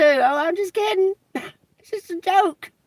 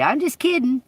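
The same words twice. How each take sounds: First: High, laughing "Oh, I'm just kidding"; mocking laugh. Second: Higher, sing-song "kidding"; mocking. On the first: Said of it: "say it in that manner, too". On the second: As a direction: toss off "I'm just kidding" snidely. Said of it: "say it in that manner". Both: Shown as a demonstration.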